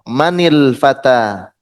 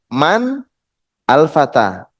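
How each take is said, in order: First: Man takes a short i linking it on. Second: Man ends without a vowel before al. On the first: "maka kita kasih harokat kasroh" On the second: "Di sini juga ada bertemunya dua sukun ya"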